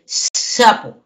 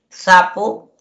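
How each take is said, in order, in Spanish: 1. La primera consonante es un sonido aspirado, tipo ch. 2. La primera consonante es una s limpia. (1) "dice sapo" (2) "en vez de decir sapo"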